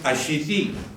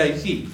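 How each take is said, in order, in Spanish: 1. El nombre se dice como 'Ashiti'. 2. El nombre se dice como 'Haiti'. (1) "la vamos a pronunciar mal" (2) "sería Haití la pronunciación"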